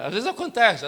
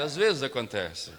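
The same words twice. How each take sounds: First: Louder, higher emphatic repeat; preacher's raised repeat. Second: Slower, drawn-out gentle repeat; slowed, settled echo of the phrase; slow and soft. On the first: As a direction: proclaim it to the congregation. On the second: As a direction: let it sink in slowly. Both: Shown as a demonstration. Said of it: "Diga pra quem tá perto de você".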